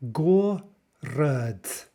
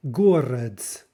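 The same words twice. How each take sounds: First: Город split into GO, pause, ruhd; syllable by syllable. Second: Said in the usual way. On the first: Shown as a demonstration. Teacher shows the transcription, город broken into syllables. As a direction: sound out город in two slow, separate syllables. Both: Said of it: "again, note the transcription".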